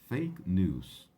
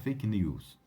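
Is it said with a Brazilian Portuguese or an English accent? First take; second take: English; Brazilian Portuguese. First: It is said with English sounds. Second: It is said with Brazilian Portuguese sounds. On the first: The speaker calls it right. "Para falar em, em inglês corretamente" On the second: The speaker calls it wrong. "abrasileirando muito a palavra"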